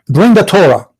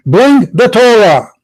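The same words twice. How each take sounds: First: Said in the usual way. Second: "Bring the Torah" spelled out slowly, BRING hit hard; slow emphatic command. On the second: Real, not acted. Host pressing caller Abdul, slow emphatic repeat. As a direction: lean on BRING and slow it right down. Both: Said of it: "Abdul, are you listening?".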